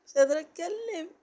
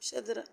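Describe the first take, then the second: First: Higher and louder, laughing it out; laughing exclaim. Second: Said in the usual way. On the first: Real, not acted. Vlogger cracking up at viewers, laughing loudly. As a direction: burst out laughing at your own tiredness.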